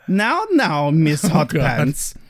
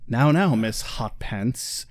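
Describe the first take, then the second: First: It is said in a put-on German accent. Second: It is said in the speaker's usual accent.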